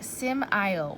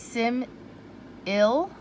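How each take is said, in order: First: The second syllable has a long I vowel. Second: The second syllable has a short I vowel. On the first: "maybe this could be a magic E syllable... that doesn't sound right" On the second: "which is another closed syllable... a short I sound"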